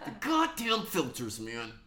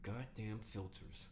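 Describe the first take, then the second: First: It is said in a put-on angry white man voice. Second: It is said in his normal voice.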